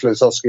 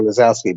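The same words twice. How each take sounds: First: Lazowski as "la-ZOSS-ki"; short "o" in the middle of Lazowski; first pronunciation option. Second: Lazowski as "la-ZOW-ski"; second pronunciation option. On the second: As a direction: open "ow" in the middle of Lazowski. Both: Shown as a demonstration. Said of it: "not sure whether it's".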